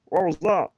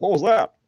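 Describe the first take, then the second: First: High, loud, badly faked cartoon voice; a bad try at the cartoon dad; mocking his own bad impression, high and silly; bad Peter impression. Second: Much higher and louder cartoon voice; squeaky startled cartoon dad; Peter impression. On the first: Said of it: "not a good impression of him". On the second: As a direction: Peter asks what the noise was, in a silly high voice. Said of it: "He's like".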